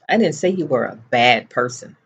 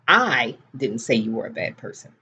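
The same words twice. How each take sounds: First: The stress falls on the word bad. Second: The stress falls on the word I. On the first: A different insult was said. "What I said was, you were a moron" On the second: Someone else said it. "Somebody else said it"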